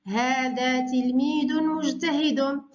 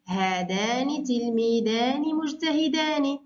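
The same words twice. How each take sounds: First: إملاء بطيء؛ هذا تلميذٌ مجتهدٌ بتنوين واضح وبطء؛ كلمة كلمة بنبرة الإملاء؛ معلمة تملي الجملة على التلاميذ ببطء. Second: إملاء بطيء؛ هذانِ تلميذانِ مجتهدانِ بنطق الألف والنون بوضوح؛ ببطء مع إبراز علامة المثنى؛ معلمة تملي جملة المثنى ببطء. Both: Shown as a demonstration. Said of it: "حول إلى المثنى".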